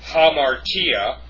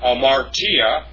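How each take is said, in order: First: The word begins with an h sound. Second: The word begins without an h sound. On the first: The speaker calls it right. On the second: The speaker calls it wrong.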